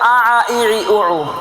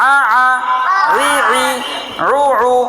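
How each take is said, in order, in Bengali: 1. শব্দাংশগুলো সাধারণ গ্লটাল স্টপ দিয়ে শুরু হয়। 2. শব্দাংশগুলো গলার 'ain' দিয়ে শুরু হয়। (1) "অনেকে পড়ে আ আ ই ই উ উ আ আ দুই জবর দিয়ে পড়তেছে" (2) "দুইটা আইন একসাথে"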